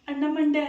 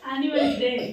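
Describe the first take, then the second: First: It sounds like 'anna mande'. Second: It sounds like 'annual day'. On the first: The speaker calls it wrong. "ಅಣ್ಣ ಮಂಡೆ ಅಲ್ಲ" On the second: The speaker calls it right.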